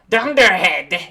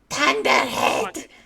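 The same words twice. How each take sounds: First: It is said in a plain voice. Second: It is said in a scratchy voice.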